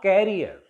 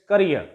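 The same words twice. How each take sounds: First: "career" said as CARE-ee-er; "career" with an open, stressed KAIR; common mispronunciation. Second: "career" said as kuh-REER; short ca-, stressed REER in "career"; stress on last syllable. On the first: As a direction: stress the first syllable of "career", like carrier. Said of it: "it is not career". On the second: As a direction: hit the end of "career". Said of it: "stress will take place on the last syllable". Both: Shown as a demonstration.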